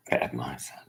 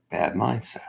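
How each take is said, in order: First: Said again much softer and lower; quiet repeat under the breath; muttered low. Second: Said in the usual way. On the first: Real, not acted.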